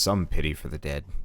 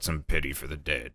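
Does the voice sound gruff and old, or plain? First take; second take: plain; gruff. First: It is said in a plain, ordinary voice. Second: It is said in a gruff, old man's voice.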